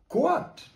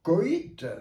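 First: The word has one syllable, like kwat. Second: The word has two syllables, like ko-eet. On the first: The speaker calls it right. "on dit quoite" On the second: The speaker calls it wrong. "on ne dit pas coïte ?"

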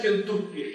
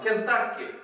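First: The second syllable has a Russian 'u' vowel. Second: The second syllable has an English-like 'a' vowel. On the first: It follows the traditional Russian pronunciation. "привыкаешь к «Кентукки»" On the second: It follows the newer English-influenced pronunciation. "или там «Кентакки»"

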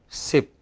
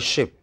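First: The word starts with an 's' sound. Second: The word starts with a 'sh' sound. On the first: "we go by sip" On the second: "We don't go by ship"

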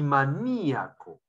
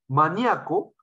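First: The stress falls on the i, four syllables. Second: The stress falls on the a, three syllables.

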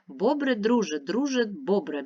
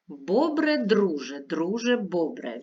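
First: It is read at a fast pace. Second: It is read at a normal, unhurried pace. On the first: "А тепер швидко" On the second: "Послухайте"

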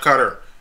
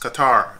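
First: The name is said like the word 'cutter'. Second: The name is said unlike the word 'cutter'. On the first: The speaker calls it wrong. "Most Americans pronounce that word by saying cutter. No, it's not cutter" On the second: The speaker calls it right. "That word is Qatar"

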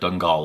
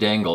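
First: The word is said with a non-American pronunciation. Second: The word is said with an American pronunciation. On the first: The speaker calls it right. "but I'm sure it's like Dangal or something like that" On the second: The speaker calls it wrong. "That's the American, pronunciation on it"

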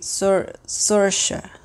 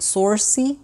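First: The name ends with a "sha" sound. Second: The name ends with a "see" sound. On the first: The speaker calls it right. "it's actually Sorsha" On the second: The speaker calls it wrong. "he thought it was like Sorcy"

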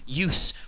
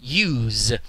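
First: The final consonant is an unvoiced s sound. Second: The final consonant is a voiced z sound. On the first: It is used as a noun. "That noun" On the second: It is used as a verb. "we have the verb in mind rather than the noun. We say use"

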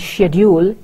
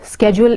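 First: It is said with a British pronunciation. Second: It is said with an American pronunciation. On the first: "schedule is the British pronunciation" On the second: "Schedule is the American pronunciation"

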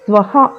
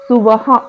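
First: The s and v are joined with no vowel. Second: An extra u vowel separates the s and v. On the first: The speaker calls it right. "స్వహ అని పలకాలి" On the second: The speaker calls it wrong. "కొంతమంది సువహ అని పలుకుతారు, అది కాదు"

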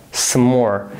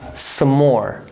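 Both takes have the same delivery.

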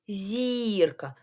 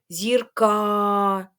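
First: The stress is on the first syllable. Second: The stress is on the second syllable. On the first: The speaker calls it right. "Так, голосний і" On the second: The speaker calls it wrong. "якщо б я казала з наголосом на а"

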